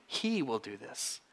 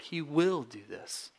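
First: "He" leaned on and drawn out; slow, with weight on "He", the rest falling softer; stress on He. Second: "will" drawn out slowly; stress on will. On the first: Preacher underlines who carries us, stress on "He". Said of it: "you can underline the first word". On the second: Preacher underlines the second word for his church, stress on "will". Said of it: "We could underline the second word". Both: Shown as a demonstration.

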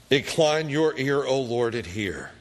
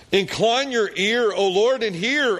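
First: Said in the usual way. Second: Much higher, louder pleading prayer; desperate plea lifted high and loud; fervent cry. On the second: Acted. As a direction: cry out to God as the king in distress. Prayer repeated with fervour.

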